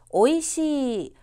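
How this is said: The pitch stays level across the whole word. The speaker calls it right. "그냥 쭉 일직선으로 밀면 됩니다"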